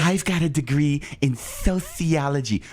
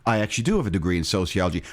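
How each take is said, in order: First: Slow, put-on lisping brag; mock lispy voice. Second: Said in the usual way. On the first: Host answering a jab about the degree, lispy mocking voice. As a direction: stretch it out with an exaggerated lisp. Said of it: "you talk like that".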